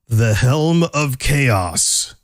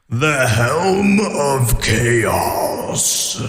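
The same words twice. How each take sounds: First: It is said in a plain, normal voice. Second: It is said in a put-on dramatic voice. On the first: The speaker calls it wrong. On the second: The speaker calls it right.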